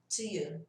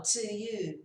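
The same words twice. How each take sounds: First: "to you" with a short, reduced "tuh"; unstretched connected "to". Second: "to you" with a long, full "to"; rejected stretched version. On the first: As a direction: keep "to" brief before "you". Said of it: "você vai ouvir mais estendido". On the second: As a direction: draw out "to" before "you". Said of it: "Não falo to you". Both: Shown as a demonstration.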